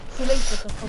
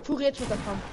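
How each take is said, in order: First: Louder urgent call-out; panicking gamer. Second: Said in the usual way. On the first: Real, not acted. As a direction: shout it across the fight. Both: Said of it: "repeated louder as an urgent call".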